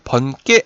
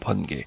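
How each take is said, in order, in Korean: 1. 두 번째 음절은 된소리로 시작해요. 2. 두 번째 음절은 예사소리로 시작해요. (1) "번개 아니고" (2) "된소리로 발음이 돼요? 안 됩니다"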